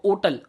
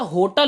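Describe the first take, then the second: First: The h is silent, American style. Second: It starts with an h sound, British style.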